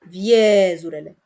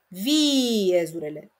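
First: The e sound is held long and sounds natural. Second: The i sound is held long and sounds forced. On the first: The lengthened sound is a vowel. The speaker calls it right. "Este regulă să zic viezurele" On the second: The lengthened sound is a semivowel. The speaker calls it wrong. "Dar dacă zic viezurele, nu e regulă absolut deloc"

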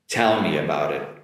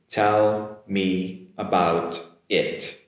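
First: The words are said quickly, run together. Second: The words are said slowly, one at a time. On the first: "Now I'm gonna do it natural now" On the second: "let's repeat it slowly"

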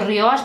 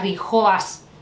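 First: The name is said with no h sound. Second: The name is said with an h sound. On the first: "yo lo pronuncio Rioas" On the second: "pero no sé si será Rijoas"

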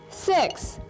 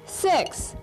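First: The word is spoken aloud. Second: The word is spoken aloud.

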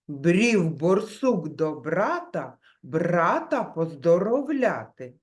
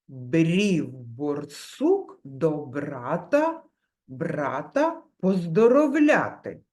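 First: The phrase is spoken at a moderate pace. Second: The phrase is spoken slowly. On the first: "Тепер трішки швидше" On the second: "Спочатку промовляємо повільно"

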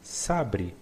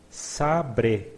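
First: The word is said fast, as in everyday speech. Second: The word is said slowly and carefully.

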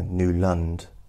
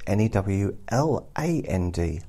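First: The second syllable sounds like 'lund'. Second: The second syllable sounds like 'land'. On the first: "I would automatically put N-E-W-L-U-N-D, because it's, you know" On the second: "But Newland is N-E-W-L-A-N-D, land, obviously"

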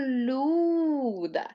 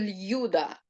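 First: A soft 'l' goes straight into the vowel. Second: A separate 'y' glide is heard before the vowel. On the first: The speaker calls it right. "я кажу Люда. І я тягну цей склад, і я чітко чую лише звук У" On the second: The speaker calls it wrong. "Я не кажу Л'юда"

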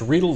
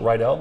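First: The first syllable rhymes with needle. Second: The first syllable sounds like rye. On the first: The speaker calls it right. "It's Riedel, the way to remember, Riedel like needle" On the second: The speaker calls it wrong. "you can call it Riedel. That's the high school in the Grease movies"

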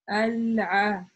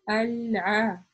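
First: The consonant is a deep sound from mid-throat. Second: The same.

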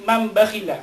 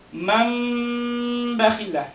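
First: The nasal m is short, not held. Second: The nasal m is held for two counts. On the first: The speaker calls it wrong. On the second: The speaker calls it right. "magpuproduce ka ng dalawang ghunna"

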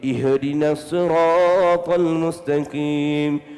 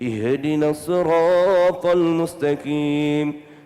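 Both takes have the same delivery.

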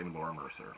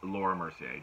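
First: The surname ends with an 'er' sound. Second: The surname ends with an 'ay' sound. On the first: The speaker calls it wrong. "don't say Laura Mercer" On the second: The speaker calls it right. "It's Laura Mercier"

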